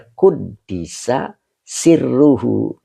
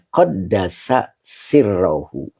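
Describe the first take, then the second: First: The first word is read with 'u' and 'i' vowels. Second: The first word is read with 'a' vowels. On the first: The verb is passive, so the secret is its subject. "Ada juga yang bacanya Quddisa Sirruhu" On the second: The verb is active, with the secret as its object. "Ada yang bacanya Qaddasa Sirruhu"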